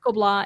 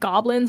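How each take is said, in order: First: It does not sound like the English word goblins. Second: It sounds like the English word goblins. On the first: The speaker calls it right. "it's pronounced Gobelin" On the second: The speaker calls it wrong. "looks like goblins or gobelins, but that's not how you say it"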